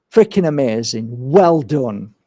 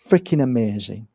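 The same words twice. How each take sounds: First: Said in the usual way. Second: Softer, hushed freaking amazing; soft praise. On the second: Retold or imitated. Healer praising the parents softly. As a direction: say freaking amazing almost under the breath.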